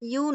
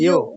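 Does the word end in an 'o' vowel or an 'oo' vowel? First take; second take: oo vowel; o vowel. First: The word ends in an 'oo' vowel. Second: The word ends in an 'o' vowel. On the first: The speaker calls it wrong. "কিন্তু ইউ বলা যাবে না" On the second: The speaker calls it right. "ইয়ো অথবা ইয়ো ঠিক আছে"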